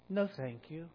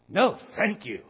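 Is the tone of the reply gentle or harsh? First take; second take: gentle; harsh. First: It is said in a warm, gentle tone. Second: It is said in a harsh, disgusted tone. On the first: The speaker would like more but is full. The speaker calls it right. "you say it like, I wish I had room for more, but no, thank you" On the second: The speaker finds the food disgusting. The speaker calls it wrong. "As if, ooh, yuck, I don't want any more. That's just your tone of voice, right? Can be harsh"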